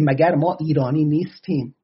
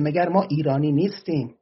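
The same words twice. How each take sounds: First: Said in the usual way. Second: Put-on light Arabic accent on the Persian words. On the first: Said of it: "میگه". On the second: Khuzestani Arab protester asks if they are Iranian, light Arabic accent. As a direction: quote a Khuzestani compatriot in a mild Arabic accent. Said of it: "با لهجهٔ عربی میگه".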